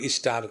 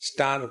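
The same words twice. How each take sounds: First: An "i" vowel is added before the s-sound. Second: It starts directly with the s-sound.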